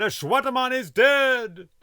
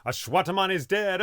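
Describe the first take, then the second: First: Much higher, louder triumphant yell; full shout. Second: Raised high call, just building; calling out the news, not yet at full force; first call of the news, rising; starting to shout. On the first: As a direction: bellow the news across the camp. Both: Acted. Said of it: "began shouting".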